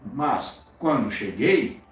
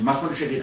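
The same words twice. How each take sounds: First: The phrase is set off by pauses. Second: The phrase runs together without pauses. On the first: The speaker calls it right. "então quando cheguei é uma informação intercalada" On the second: The speaker calls it wrong. "você não diz"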